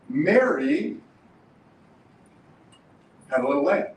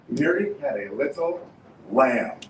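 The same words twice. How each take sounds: First: The stress is on Mary. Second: The stress is on lamb.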